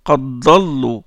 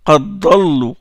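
The two takes are said the same way.

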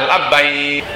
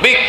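First: The whole word is said with both syllables. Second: Only the final syllable of the word is said. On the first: The speaker calls it right. "Yang benar adalah labbaik" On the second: The speaker calls it wrong. "Kalau Jakarta malah panggil ujungnya doang, bik gitu"

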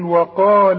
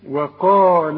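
First: The final vowel is long before a stop. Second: The final vowel is short, joined to the next word. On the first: The reader stops on this word. "عند الوقف أقول إيه؟ أقول وقال" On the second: The phrase continues without a stop. "عند الوصل نلغي هذا المد"

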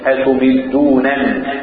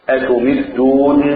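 First: The two n sounds are pronounced separately. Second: The two n sounds merge into one doubled n. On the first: "والباقون غير حمزة بنونين" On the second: "أضغم النونين، نون الإعراب مع نون الوقاية"

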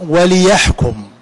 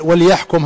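First: The l is said with a following i-vowel. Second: The l is said without a following vowel. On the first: It gives the purpose for which it was sent. "وتكون اللام لام التعليل" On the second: It is a command to judge. "هذه لام الأمر"

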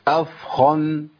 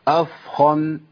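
Both takes have the same delivery.

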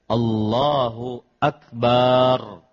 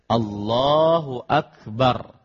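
First: The final syllable bar is drawn out long. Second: The final syllable bar is kept short. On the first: The speaker calls it wrong. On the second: The speaker calls it right.

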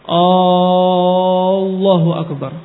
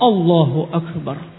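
First: The opening a sound is lengthened. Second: No vowel is lengthened; it is said straight. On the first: It turns the phrase into a question. The speaker calls it wrong. "Atau hamzahnya panjang" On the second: It states that God is the greatest. The speaker calls it right.

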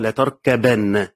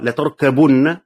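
First: The vowel after the b is a. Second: The vowel after the b is u. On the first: "بالفتح" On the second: "بالضم"

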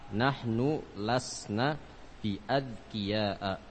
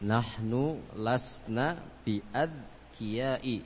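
First: The last word ends in an 'a' vowel. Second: The last word ends in an 'i' vowel. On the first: The speaker calls it right. "ketika majrur harus berharokat apa? ... Fathah" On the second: The speaker calls it wrong. "Kenapa dibaca bi adqiyai?"

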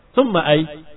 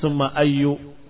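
First: The second word ends without any final vowel. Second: The second word ends with a short u vowel. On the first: Stopping on the word avoids choosing a case ending. "kamu sukunkan selamat" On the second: The word is treated as tied to an omitted noun. "dia dibaca summa ayyu karena takdir mudhaf"

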